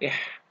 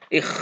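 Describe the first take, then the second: First: A soft breathy h sound follows the vowel. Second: A rough scraping kh sound follows the vowel. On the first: The speaker calls it wrong. "nggak boleh ih" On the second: The speaker calls it right. "ngeres dibaca"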